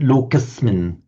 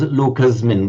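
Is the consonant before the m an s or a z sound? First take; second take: s; z. First: The consonant before m is an s sound. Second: The consonant before m is a z sound. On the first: The speaker calls it right. "it has to be distinguished as a s" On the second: The speaker calls it wrong. "pronouncing it as Locusmin, which which we would do in English"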